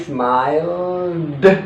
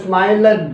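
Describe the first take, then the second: First: The ending is pronounced as a d sound. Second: The ending is not pronounced as a d sound. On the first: The speaker calls it right. "Smile menjadi smile deh" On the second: The speaker calls it wrong. "Jadi bukan smiled"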